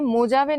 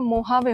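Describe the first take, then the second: First: The middle consonant is a j sound. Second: The middle consonant is an h sound. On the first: The speaker calls it wrong. "मोजावे नहीं होगा" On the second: The speaker calls it right. "मोहावे होगा"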